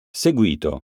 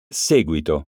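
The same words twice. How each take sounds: First: Seguito said as seGUIto, middle syllable stressed; stress on GUI. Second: Seguito said as SEguito, first syllable stressed. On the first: Teacher contrasting homographs for pupils, seGUIto stressed. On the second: Teacher contrasting homographs for pupils, SEguito stressed. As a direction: hit SE in Seguito. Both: Shown as a demonstration. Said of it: "Eccone alcuni esempi".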